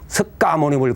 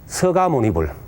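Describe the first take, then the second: First: A clear k sound is heard before 'ga'. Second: No k sound is heard before 'ga'. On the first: It follows the written spelling. "석가모니불 그렇게 하지 않고" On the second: It follows customary usage. "서가모니불 이제 보통 그렇게"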